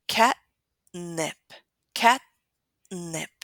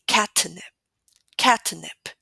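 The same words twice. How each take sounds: First: Catnip with the t held unreleased straight into the n. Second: Catnip with an over-released t, like cat-uh-nip; exaggerated released T. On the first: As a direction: say catnip as cat-nip, no puff or vowel after the t. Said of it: "So we say". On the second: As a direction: overdo the t in catnip, popping it open before nip. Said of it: "It sounds very, very exaggerated". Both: Shown as a demonstration.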